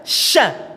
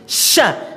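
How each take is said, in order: Both takes have the same delivery.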